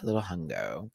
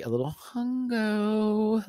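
First: HUNGO softer and dropped low; low, offhand repeat. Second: HUNGO high and slowly drawn out; playful high singsong. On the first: Host repeating the hunger joke, low and soft on HUNGO. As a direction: drop HUNGO down low and quieter. Same words in lower voice. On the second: Host playfully admitting hunger, high singsong on HUNGO. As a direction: stretch HUNGO into a high, silly croon. Playfully restates being hungry. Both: Real, not acted.

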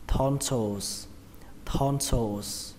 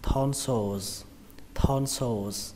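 First: "tonsils" ending in a voiceless S; final S. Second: "tonsils" ending in a voiced Z; final Z. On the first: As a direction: say "tonsils" as thon-sôs, stressed first. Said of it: "Đó là âm sờ". (đọc "tonsils" kết thúc bằng âm sờ) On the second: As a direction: say "tonsils" as thon-sôz, buzzing the end. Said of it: "muốn kết thúc bằng âm giờ". (đọc "tonsils" kết thúc bằng âm giờ) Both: Shown as a demonstration.

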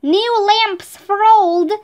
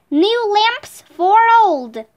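First: Calling out. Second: Drawn-out street cry; slow calling out. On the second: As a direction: call it out slowly, like a seller. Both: A narrator's reading. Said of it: "called out".

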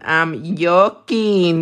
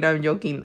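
First: Slow, playful drawl on "joking"; drawn-out joking. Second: Said in the usual way. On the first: Real, not acted. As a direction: stretch out JOKING slowly. Repeats it drawn out for fun.

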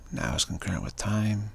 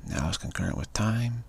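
No difference in how they are said.

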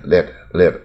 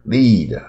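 First: "lead" said as a short lax "led"; short open vowel in "lead", like "led"; American pronunciation. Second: "lead" with a long ee, like "leed"; local learners' pronunciation. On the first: Teacher showing how Americans say lid, short "led" for "lead". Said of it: "可是美国人念". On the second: Teacher mimicking how we say lid, long-ee "lead". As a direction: draw out the ee in "lead". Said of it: "这盖子也是我们念". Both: Shown as a demonstration.

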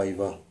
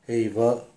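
First: «айва» opening on plain «а», no breath sound; altered pronunciation. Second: «эйва» opening on «э», a light breath before it; original pronunciation. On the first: Teacher shows the changed word, Russified «айва». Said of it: "превращаются в слово". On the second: Teacher shows the original word, front vowel in «эйва». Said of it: "даже произносятся". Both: Shown as a demonstration.

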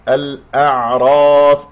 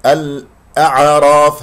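First: Loud slow "الأعراف" with a vowelless ayn held briefly; correct flowing ayn. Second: Loud "الأعراف" with an extra vowel after the ayn; wrong bounced ayn. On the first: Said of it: "العين يجري فيها الصوت". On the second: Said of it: "هذا خطأ". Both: Shown as a demonstration.

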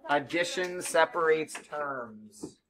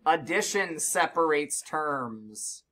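First: Slow, with "separates" hit hardest; stress on separates. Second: Slow, with "Addition" hit hardest; stress on addition. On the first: Teacher repeating the rule, weight on "separates". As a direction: lean on "separates", keep "Addition" light. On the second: Teacher drilling the rule, weight on "Addition". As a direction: lean on "Addition", then ease through "separates terms". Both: Shown as a demonstration. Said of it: "What separates terms, guys?".

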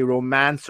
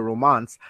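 First: "romance" with the A of "cat" in the second syllable; short-a pronunciation. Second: "romance" said as "ro-MAHNS"; broad-a pronunciation. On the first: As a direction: say "romance" as "ro-MANSS", American-style A. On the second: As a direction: say "romance" with the long AH of "father". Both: Shown as a demonstration. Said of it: "I say romance or romance".

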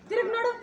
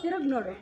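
First: High rising call of ತಿರುಗ್ ನೋಡು; ತಿರುಗ್ ನೋಡು called out on a rise. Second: ತಿರುಗ್ ನೋಡು lower, falling and firm; low firm command. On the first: Director calling actor to turn, high rising call. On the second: Director repeats turn order to actor, low and firm. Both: Real, not acted. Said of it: "ತಿರುಗು".

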